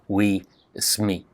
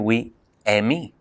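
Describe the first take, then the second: First: The surname sounds like sme, with no vowel. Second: An e sound comes first and the s drops. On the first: "they get hungry and they eat those final consonants" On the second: "They say we Emi"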